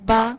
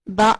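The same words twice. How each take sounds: First: The vowel is released softly without a jolt. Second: The vowel is cut off with an abrupt jolt. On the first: The speaker calls it right. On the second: The speaker calls it wrong.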